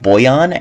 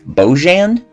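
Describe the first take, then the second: First: The name is said in a non-American way. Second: The name is said in an American way. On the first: The speaker calls it right. "His name is pronounced Bojan" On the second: The speaker calls it wrong. "not Bojan, ... the same way you would pronounce it in an American uh, pronunciation"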